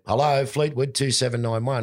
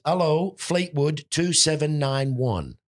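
First: High copy of the landlady's greeting, normal pace; mimicked phone greeting. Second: High, slow, loud-ish telephone-answering impression; Edith. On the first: Lodger answers the phone like his landlady, high mimicking voice. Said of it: "So I went". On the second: Landlady answers the home phone, high slow mimicked voice. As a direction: draw out a high-pitched mimicked phone greeting. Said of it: "she answered the phone like this".

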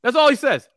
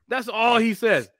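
First: Higher and louder, marveling at his nerve; emphatic disbelief. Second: Slow, drawn-out, deliberate repeat; slow emphasis. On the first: Host telling cohosts about Browner's nerve, amused disbelief. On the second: Host repeating the punchline to cohosts, slow deliberate emphasis. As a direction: let each word land slowly. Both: Shown as a demonstration.

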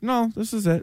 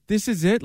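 First: Falling, settled answer on "this is it"; final answer. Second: Rising, incredulous question on IT; disbelieving question. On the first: Answering let-down new players, final answer. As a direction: state "No, this is it" with a closing fall. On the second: New players arriving at Foxborough, disbelieving question. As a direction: ask "This is it?" with the pitch lifting at the end. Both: Retold or imitated.

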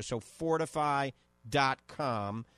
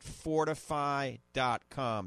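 First: "fortify dot com" said slowly and deliberately; slow down so listeners catch "fortify"; careful, slow "fortify dot com" for listeners to write down; spelled-out emphasis. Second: Said in the usual way. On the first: Shown as a demonstration. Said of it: "That's F O R T I F E Y E".

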